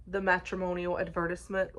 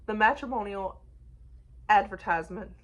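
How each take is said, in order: First: Put-on the matrimonial advertisement in a light British accent. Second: Said in the usual way. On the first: Reviewer imitates a friend's British accent for viewers, lightly. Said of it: "like, in a British accent". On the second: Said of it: "is how I would say it in my accent".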